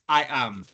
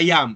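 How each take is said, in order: First: The two words are kept clearly apart. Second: The two words run together without a break. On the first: The speaker calls it right. "yo no lo estoy conectando" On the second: The speaker calls it wrong. "No es I am"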